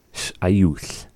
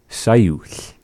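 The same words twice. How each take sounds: First: "Sh'ayuch" with a clear stop between first consonant and vowel; glottal pause. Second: "Sayuch" run together with no stop after the S; dropped pause. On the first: Teacher restoring the full word for learner, glottal pause in "Sh'ayuch". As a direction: break briefly after the opening sound of "Sh'ayuch". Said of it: "having the pause". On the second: Teacher showing how fluent speakers say it, pause dropped in "Sayuch". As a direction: glide from S straight into the vowel in "Sayuch". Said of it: "might often drop the pause". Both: Shown as a demonstration.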